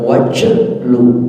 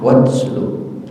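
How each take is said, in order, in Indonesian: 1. Bunyi t berubah menjadi bunyi seperti j. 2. Bunyi t dilepas ringan dengan letupan berdesir. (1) "jangan sampai tawalud huruf lain seperti dibaca wajlu, itu enggak boleh" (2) "maka harus dibaca pecah"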